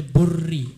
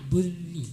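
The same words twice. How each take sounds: First: Burri with a heavy rolled R; trilled R. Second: Burri with a thin R, no vibration; untrilled R. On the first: Judge warning against this reading, thick trilled R in burri. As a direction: show the mistake, vibrating the RR in burri. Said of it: "Jangan dibaca burri". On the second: Judge giving the right reading, thin smooth R in burri. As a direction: say burri lightly, never rolling the R. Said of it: "tidak ada getaran". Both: Shown as a demonstration.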